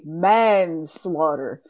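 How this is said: The word has a pause after its first part. The speaker calls it right. "I feel like there's a pause there"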